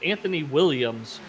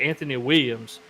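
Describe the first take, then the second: First: The L sounds in Williams are clearly pronounced. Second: The L sounds in Williams are dropped. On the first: This is how people from elsewhere say it. "He says Anthony Williams" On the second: This is how people locally say it. "we don't really say the L's at all"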